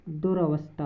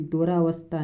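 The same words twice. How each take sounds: First: दुरावस्था with short 'a' after r; correct-form demo. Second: दुरावस्था with long 'aa' after r; wrong-form demo. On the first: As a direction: say दुरावस्था as 'du-ra-vastha', middle vowel short. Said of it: "दुरावस्था होता है". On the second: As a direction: say दुरावस्था as 'du-raa-vastha'. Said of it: "दुरावस्था नहीं होता". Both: Shown as a demonstration.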